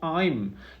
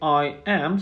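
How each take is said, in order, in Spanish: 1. Se dice como una sola sílaba contraída. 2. Se dice como dos palabras separadas.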